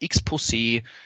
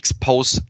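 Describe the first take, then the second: First: The name is said like French "exposé". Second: The name is said as X plus "post". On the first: The speaker calls it wrong. "teilweise haben Leute gesagt, X-Pose ... Und falsch" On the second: The speaker calls it right. "Wir sind die X-Post 360"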